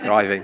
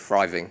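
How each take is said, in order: First: The word begins with a th sound. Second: The word begins with an f sound. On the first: The speaker calls it right. "you're supposed to say" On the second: The speaker calls it wrong. "I pronounce it with an F"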